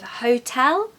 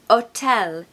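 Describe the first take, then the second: First: It is said with a clear H sound. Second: It is said without the H, French-style.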